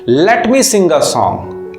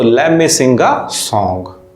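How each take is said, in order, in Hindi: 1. 'Let me' को दो पूरे शब्दों की तरह बोला जाता है। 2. 'Let me' को जोड़कर 'lemme' की तरह बोला जाता है।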